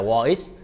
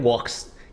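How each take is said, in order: First: The name is pronounced with Vietnamese sounds. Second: The name is pronounced with English sounds. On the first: "nếu anh em đọc theo tiếng Việt thì là Works" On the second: "Đọc theo một cái tiếng Anh anh em đọc đúng là hãng Works"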